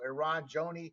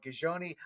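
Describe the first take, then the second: First: The name starts without any G sound. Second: The name starts with a hard G sound.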